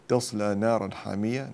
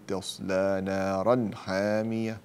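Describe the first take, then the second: First: Said in the usual way. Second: Very slow تصلى نارا حامية, distinct n before ح; drawn-out recitation with unblended n in نارا حامية; clear tanween. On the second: Shown as a demonstration. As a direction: sound the n of نارا cleanly, then حامية. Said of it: "فأظهر التنوين".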